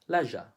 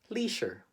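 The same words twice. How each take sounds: First: It is said with a British English accent. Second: It is said with a Filipino English accent. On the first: "In the U K, they would say leisure" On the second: "how do Filipinos pronounce this word?"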